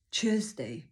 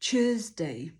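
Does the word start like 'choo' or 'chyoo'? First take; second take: choo; choo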